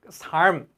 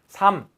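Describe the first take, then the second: First: Both final consonants, l and m, are pronounced. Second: Only one final consonant, m, is pronounced. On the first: The speaker calls it wrong. "안 그러잖아요" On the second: The speaker calls it right. "발음에서는 하나만 나기 때문에"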